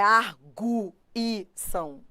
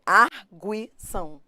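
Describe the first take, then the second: First: "arguição" in four slow beats, gu and i apart; wrong syllable split. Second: "arguição" in three slow beats, gui held together; correct syllable split. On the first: Teacher warning students of the wrong split, "arguição" with u and i separated. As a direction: break "arguição" as ar, gu, i, são. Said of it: "não é arguição". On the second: Teacher showing students the right split, "arguição" with gui as one syllable. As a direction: break "arguição" as ar, gui, são. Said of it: "É arguição". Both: Shown as a demonstration.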